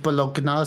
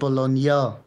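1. Das gn klingt wie ein hartes g, dann n. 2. Das gn klingt wie ein einzelner ny-Laut. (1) "Die sagen ja nicht Bologna" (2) "sondern Bologna"

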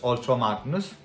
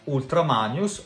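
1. Il nome si dice con pronuncia inglese. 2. Il nome si dice con pronuncia italiana.

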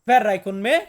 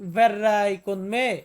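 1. এটি প্রশ্নসূচক জোরালো ধাক্কা দিয়ে বলা হয়েছে। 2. এটি সমতল স্বরে বলা হয়েছে, প্রশ্নসূচক ধাক্কা ছাড়া। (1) "একটু ধাক্কা দিয়ে কথাটা বলবেন" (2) "আপনি যদি এইভাবে বলেন ভের রাইকন মে, এমনটা বলবেন না"

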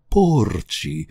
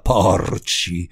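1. La O tonica è una vocale chiusa. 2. La O tonica è una vocale aperta. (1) "con la O stretta" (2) "non con la O larga"

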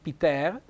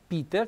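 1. L'accento non cade sulla vocale i. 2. L'accento cade sulla vocale i. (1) "non Peter" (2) "con l'accento tonico sulla I"

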